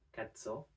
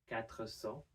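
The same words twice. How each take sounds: First: The final r of quatre is left out. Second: The final r of quatre is pronounced.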